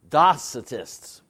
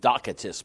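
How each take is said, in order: First: The middle consonant is a soft s sound. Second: The middle consonant is a hard k sound.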